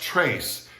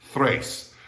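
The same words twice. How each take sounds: First: "trace" with a hard English t-r; wrong hard TR. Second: "thrace" starting with th-r. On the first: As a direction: say "trace" with a plain T before the R. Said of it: "it's not pronounced trace". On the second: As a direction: say "thrace" with TH as in three. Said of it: "it's pronounced thrace". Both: Shown as a demonstration.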